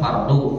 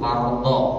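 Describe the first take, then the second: First: The word ends with a 'u' vowel. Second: The word ends with an 'a' vowel. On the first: The speaker calls it wrong. "bukan pakai doma" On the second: The speaker calls it right. "tapi pakai fathah"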